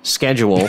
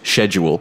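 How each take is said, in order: First: The word is said the American way. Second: The word is said the Canadian way. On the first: "schedule should be pronounced schedule" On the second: "in Canada a lot of us say schedule"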